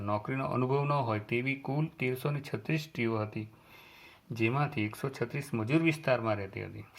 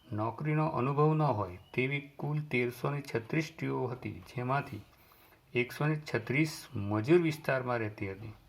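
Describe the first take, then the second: Both takes have the same delivery.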